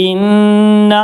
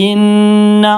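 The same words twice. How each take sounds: The two takes are said the same way.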